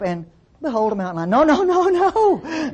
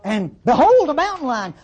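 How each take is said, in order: First: Behold is said flatly without any emphasis. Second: Behold is said with strong excited emphasis. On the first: The speaker calls it wrong. "No. You wouldn't say it like that" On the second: The speaker calls it right. "Behold is followed by three exclamation marks every time you see it"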